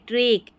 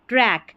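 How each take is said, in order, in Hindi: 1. स्वर एक संकरा 'e' है जैसे bed में। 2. स्वर एक खुला 'a' है जैसे cat में। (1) "एक साउंड नहीं" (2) "ऐक साउंड इसका निकालना है"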